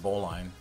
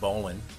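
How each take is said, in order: First: The second syllable sounds like 'line'. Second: The second syllable sounds like 'lin'. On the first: The speaker sounds like a non-sailor. "instead of bowline" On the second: The speaker sounds like a seasoned sailor. "If you really want to sound salty, pronounce it bowlin, like Jeremy Lin"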